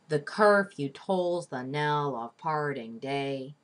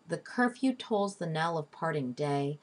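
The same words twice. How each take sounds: First: Every metrical stress is strongly exaggerated. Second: It is read with natural, even stress.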